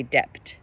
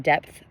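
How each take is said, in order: First: "dept" with a hard T replacing the th; dialect pronunciation. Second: Said in the usual way. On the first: Shown as a demonstration. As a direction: end "dept" on a crisp T, drawn out slowly. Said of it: "they say dept". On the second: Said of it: "but they say dept".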